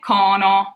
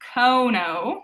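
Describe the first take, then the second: First: The O stays pure and open. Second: The O glides into a W sound. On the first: The speaker calls it right. "We say cono. So it stays more open" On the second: The speaker calls it wrong. "we won't say cono with that W sound"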